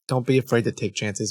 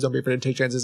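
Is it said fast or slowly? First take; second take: slowly; fast. First: It is said more slowly. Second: It is said too fast.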